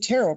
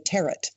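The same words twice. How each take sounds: First: It is pronounced differently from its spelling. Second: It is pronounced just as it is spelled. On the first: The speaker calls it right. "You're the only person that ever pronounced that the right way" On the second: The speaker calls it wrong. "Most people say it like it's spelled"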